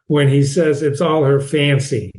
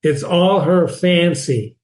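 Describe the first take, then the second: First: Said in the usual way. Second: "all" leaned on, slow; slow, stressing "all". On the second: Shown as a demonstration. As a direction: lean on "all" in "It's all her fancy".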